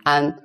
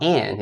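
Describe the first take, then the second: First: AN said with an "ah" vowel, held level; AN with open ah. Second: AN with the English short a; AN as in [name]. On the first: Teacher showing learners the correct syllable, AN with open ah. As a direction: say AN like "ahn". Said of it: "it's not like my name". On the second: Teacher warning learners off the English sound, AN as in [name]. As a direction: say AN like the start of "[name]". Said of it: "it's not like my name, [name]". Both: Shown as a demonstration.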